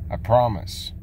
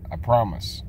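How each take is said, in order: Both takes have the same delivery.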